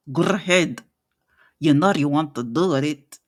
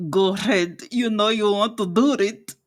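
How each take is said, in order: First: Said in the usual way. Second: Talking through clenched teeth, rolled r; through gritted teeth. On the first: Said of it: "Go ahead and try it". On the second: Shown as a demonstration. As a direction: say it through your teeth, rolling tongue. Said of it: "talks through her teeth while rolling her tongue".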